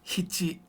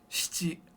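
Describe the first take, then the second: First: The word begins with an H sound. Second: The word begins with an SH sound. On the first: "It's like an H I sound" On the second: "always should be shichi"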